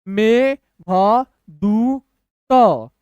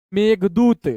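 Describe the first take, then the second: First: Very slow, long gaps between sounds; syllable by syllable. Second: Said in the usual way. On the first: Shown as a demonstration. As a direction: give each letter its own beat. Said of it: "तोड़ तोड़ के पढ़िए". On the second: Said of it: "speed पढ़ के बताऊंगा".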